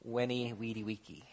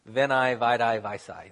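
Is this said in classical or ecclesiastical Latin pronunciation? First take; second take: classical; ecclesiastical. First: It uses the classical Latin pronunciation. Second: It uses the ecclesiastical Latin pronunciation. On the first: "Classical Latin, it's" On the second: "Ecclesiastical Latin, it sounds way cooler"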